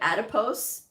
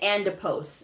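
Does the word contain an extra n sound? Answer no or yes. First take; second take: no; yes. First: No extra n sound is inserted in the word. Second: An extra n sound is inserted in the word. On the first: The speaker calls it right. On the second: The speaker calls it wrong.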